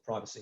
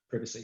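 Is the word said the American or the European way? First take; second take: American; European. First: The word is said with an American pronunciation. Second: The word is said with a European pronunciation.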